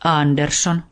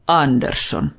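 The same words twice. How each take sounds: First: "Andersson" with a light rise as Niko; a boy naming the dog, tune lifting; boy answering. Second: Plain, falling "Andersson" as the dog; matter-of-fact dog giving its name; dog stating his name. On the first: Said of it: "Niko sanoi". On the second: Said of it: "koira sanoi". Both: A narrator's reading.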